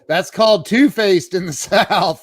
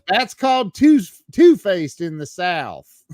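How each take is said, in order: First: It is said in his plain accent. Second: It is said in a put-on Southern accent.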